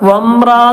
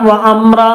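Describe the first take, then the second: First: The two parts are joined smoothly as one word. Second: A glottal catch splits the two parts apart. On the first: The speaker calls it right. "അവിടെ വംറ എന്ന് പറഞ്ഞാലും" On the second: The speaker calls it wrong. "വ അമ്ര എന്ന് പറയരുത്"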